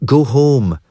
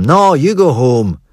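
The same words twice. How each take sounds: First: Higher, firm go home; telling them off. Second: Brother's retort. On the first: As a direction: send them off firmly. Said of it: "she tells them". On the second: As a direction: throw it back at her, slowly. Brother throws it back. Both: A narrator's reading.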